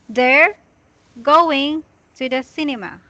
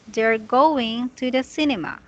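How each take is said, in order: First: Each word is read separately with pauses between. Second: The words are read smoothly with no pauses. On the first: The speaker calls it wrong. "this is how y- you're reading it" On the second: The speaker calls it right. "just say"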